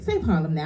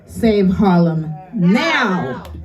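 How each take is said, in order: First: It is said plainly and quietly. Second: It is said loudly and emphatically.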